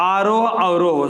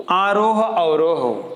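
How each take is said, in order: First: Said in the usual way. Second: आरोह अवरोह stretched slowly, each syllable drawn out. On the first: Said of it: "पांचवा है स्वर आ". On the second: Shown as a demonstration. Teacher drawing out आरोह अवरोह slowly for students. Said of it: "स्वर में".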